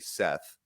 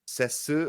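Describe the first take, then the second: First: It ends in an English th sound. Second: It has an s sound and an added vowel. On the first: "I don't say Seth" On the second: "there's no T-H sound"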